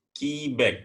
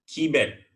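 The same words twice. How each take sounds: The two takes are said the same way.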